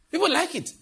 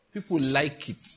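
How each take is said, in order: First: "People like it" jumping up high in pitch; mock surprise. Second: Said in the usual way. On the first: Shown as a demonstration.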